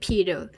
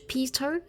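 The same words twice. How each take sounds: First: The t is a quick flap like d. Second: The t is a clear, full t. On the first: The speaker calls it right. "اتنطقت بالفلابتي" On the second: The speaker calls it wrong. "ما قلناش"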